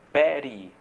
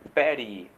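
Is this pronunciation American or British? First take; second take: American; American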